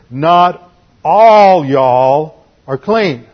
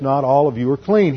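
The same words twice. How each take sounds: First: Slow, loud stretch on "all y'all"; Southern emphasis. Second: Said in the usual way. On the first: Acted. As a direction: draw out ALL long and loud, Southern-style. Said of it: "That's Southern emphasis". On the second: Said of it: "Southern emphasis".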